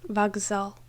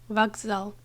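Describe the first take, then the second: No difference in how they are said.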